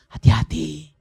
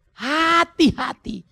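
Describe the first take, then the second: First: A firm, slightly raised warning. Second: Much higher, very slow and loud, falling at the end; drawn-out high warning. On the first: Pastor warning fathers about an easy life, firm warning. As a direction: call out the caution once, firmly. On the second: Pastor warning fathers about a slippery path, drawn-out high warning. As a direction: stretch the warning up high and let it fall. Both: Acted.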